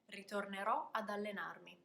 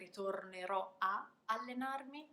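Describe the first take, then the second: First: A d sound links the preposition into the verb. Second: A short break separates the vowel from the verb. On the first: The speaker calls it right. "putting the little d after a so that I can run it together" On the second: The speaker calls it wrong. "having to pause between the a, the preposition, and the verb"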